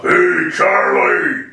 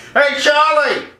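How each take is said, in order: First: Slow, rough drawn-out holler; rough mock counter-girl yell; rougher woman's voice. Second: Put-on high, called-out counter girl; hammed-up high shout; horrible woman's voice. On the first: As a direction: call out roughly, stretching each word. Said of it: "Actually, it was more rough". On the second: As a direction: holler to a coworker in back. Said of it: "Horrible sounding voice for a woman".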